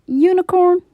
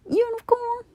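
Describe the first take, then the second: First: Calling out. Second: Said in the usual way. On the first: Acted. Donkey calling out louder.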